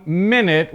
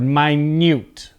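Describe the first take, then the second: First: Minute as MIN-it, short vowels; noun pronunciation. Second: Minute as my-NYOOT, long vowels; adjective pronunciation. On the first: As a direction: say minute like "minnit". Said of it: "Now, as a noun". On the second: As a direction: say minute like "my newt". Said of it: "So as an adjective". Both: Shown as a demonstration.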